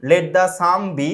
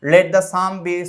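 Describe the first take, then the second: No difference in how they are said.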